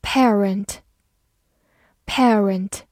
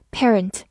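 First: Said in the usual way. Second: "parent" American-style, with "eh" running into the r; American pronunciation. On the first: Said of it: "或者美式发音parent也是可以的". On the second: Shown as a demonstration. Teacher showing learners the alternative, "parent" in American pronunciation. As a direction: say "parent" the American way, like "PEH-runt". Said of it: "美式发音parent也是可以的".

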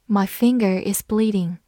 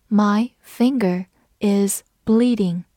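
First: Said in the usual way. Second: Slow and separated, word by word; slow read-along. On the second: Shown as a demonstration. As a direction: read slowly so learners can repeat. (慢速逐词领读) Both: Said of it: "我们慢慢来读".

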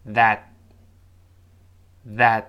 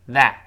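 First: That short, with no t release; quick unreleased t. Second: That drawn out, t clearly released; slow full form. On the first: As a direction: hold back the final t of that. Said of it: "读快点儿". (that读快，t失去爆破) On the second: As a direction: say that slowly with the final t popped. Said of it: "我们读慢了". (that慢读，t发清楚) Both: Shown as a demonstration.

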